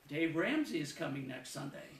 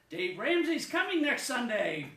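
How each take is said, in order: First: It is said as a plain statement of fact. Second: It is said with excitement in the voice.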